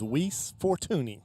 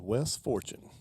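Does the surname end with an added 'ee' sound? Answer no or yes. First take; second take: yes; no. First: The name is distorted, surname ending in 'ee'. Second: The name is said plainly, surname ending in 'chun'. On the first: A heckler mangled the name on purpose. The speaker calls it wrong. "purposely mispronounce names" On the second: This is the player's real name. The speaker calls it right. "I remember it was Wes Fortune"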